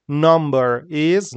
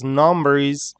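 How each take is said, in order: First: Slow 'number is', separate words, rising on 'is'; 'number is' stretched and unlinked; careful spelled-out form. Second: 'number is' joined, stress on 'number'; 'number is' as one unit, no lift at the end; natural linked pronunciation. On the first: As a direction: say 'number is' slowly, word by word. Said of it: "how we spell it". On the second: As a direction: run 'number' into 'is'. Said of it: "how we say it". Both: Shown as a demonstration.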